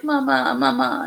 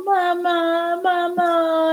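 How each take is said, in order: First: Higher pleading mama, lightly voiced; mother mimics her crawling son calling mama; imitating baby calling. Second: Put-on much higher plaintive baby mama; mother mimics her crying son crawling to her; imitating baby crying mama. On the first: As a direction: call for mom like a clingy baby. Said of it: "And he was like". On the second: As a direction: wail it like a toddler reaching for mom. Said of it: "crawling towards me going".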